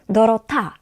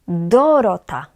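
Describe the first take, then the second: First: The stress is on the last syllable. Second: The stress is on the first syllable. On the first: "Nie na ta, bo wtedy to brzmiałoby Dorota" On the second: "Nie na do, wtedy to brzmiałoby Dorota, ale po polsku tak nie jest"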